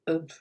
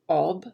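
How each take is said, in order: First: The vowel is reduced, muddy and lower. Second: The vowel is a full, clear O sound. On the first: "I say ob. It's a bit muddy" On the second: "Instead of saying ob"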